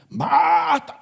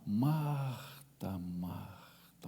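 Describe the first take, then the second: First: The name is said in a harsh tone. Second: The name is said in a tender tone.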